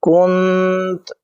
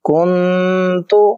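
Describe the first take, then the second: First: The word stops on a bare final consonant. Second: The word ends with a final u vowel.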